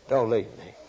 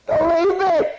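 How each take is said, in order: First: Said in the usual way. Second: Put-on very high, loud child's wail; crying child voice. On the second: Toddler begging mama not to leave, wailing high. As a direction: plead like a scared toddler. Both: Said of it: "That's a fervent appeal".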